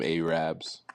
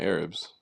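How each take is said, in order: First: The word is said the Black American way. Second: The word is said the general, mainstream way. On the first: "but we call them" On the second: This is how most people say it. "Everybody else just call them"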